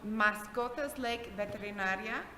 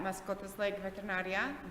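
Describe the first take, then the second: First: The name is said at a slow pace. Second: The name is said at a quick pace.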